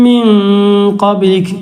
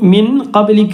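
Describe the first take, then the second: First: The n is hidden in a light nasal sound. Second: The n is pronounced fully and clearly. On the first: The speaker calls it right. "മിൻ അവിടെ ഇഖ്ഫാ ചെയ്യണം" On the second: The speaker calls it wrong. "എന്ന് പറയരുത്"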